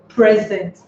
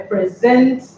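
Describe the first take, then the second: First: The stress is on the first syllable. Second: The stress is on the last syllable. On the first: It is a noun meaning a gift. "a word can be a noun and also a verb" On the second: It is a verb meaning to give. "you stress the last syllable of every two syllable verbs"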